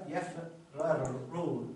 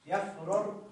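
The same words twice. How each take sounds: First: يفرر stretched very slowly, both ر sounds separate and clear; drawn-out demo. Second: Said in the usual way. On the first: Shown as a demonstration. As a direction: draw out يفرر slowly, sounding each ر apart. (نطق يفرر ببطء شديد مع فصل الراءين) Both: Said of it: "تصبح الكلمة هكذا".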